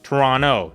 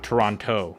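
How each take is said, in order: First: The second t sound is left out. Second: The second t sound is clearly pronounced. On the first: This is how locals say it. The speaker calls it right. "the locals don't pronounce the T" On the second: This is how outsiders say it. The speaker calls it wrong. "not Toronto"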